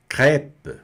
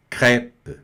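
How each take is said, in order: First: Crêpe with a wide open ê and the final p silent; crêpe, open è, silent end; French crêpe. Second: Crêpe with a wide open ê and a tapped r; French crêpe. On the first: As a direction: say crêpe as krep, open vowel. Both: Shown as a demonstration. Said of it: "Se pronuncia bem aberto mesmo".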